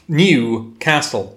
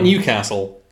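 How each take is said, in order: First: It is said as two words, new and castle. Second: It is said run together as one word. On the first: The speaker calls it right. "One word, new. Second word, castle. Like New York" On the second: The speaker calls it wrong. "Not Newcastle"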